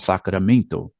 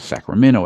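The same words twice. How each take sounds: First: The name is said with Brazilian Portuguese sounds. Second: The name is said with American English sounds.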